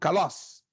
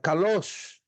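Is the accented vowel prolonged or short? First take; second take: short; prolonged. First: The accented vowel is high and short. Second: The accented vowel is high and drawn out. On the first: The speaker calls it wrong. "o som é alto, mas ele é rápido" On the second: The speaker calls it right. "o som ele é prolongado"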